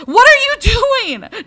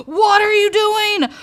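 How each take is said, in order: First: Slow, loud, high, leaning on are; loud slow what ARE you doing; exasperated yell. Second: Loud, high, punching what; high loud outburst stressing what; exasperated yell. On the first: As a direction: drag out "are" in disbelief. Yelling at the cat. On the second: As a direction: snap "WHAT are you doing". Yelling at the cat again. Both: Real, not acted.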